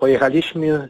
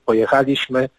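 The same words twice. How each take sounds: First: The stress falls on the second-to-last syllable. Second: The stress falls on the third-to-last syllable. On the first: The speaker calls it wrong. "jak mówi się najczęściej" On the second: The speaker calls it right.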